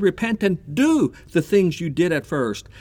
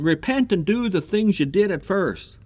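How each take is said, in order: First: "do" punched out after a slight hold; stress on DO. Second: Said in the usual way. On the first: Shown as a demonstration. Preacher repeating the verse to his congregation, stress on "do". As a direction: hit the word "do" hard against feeling. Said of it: "He doesn't say". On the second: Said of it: "Did you get that?".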